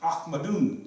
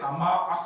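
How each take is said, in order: First: The name ends with an added 'un' syllable. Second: The name ends on a bare consonant. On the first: This is the full grammatical form. "but it's ah, Ahmadun" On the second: This is the everyday spoken form. "we say Ahmad"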